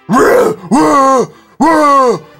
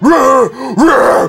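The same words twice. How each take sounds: First: It is deep with no rasp. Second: It is deep with added rasp.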